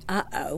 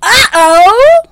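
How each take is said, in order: First: It is said flatly, with little energy. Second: It is said with a gasp and excitement.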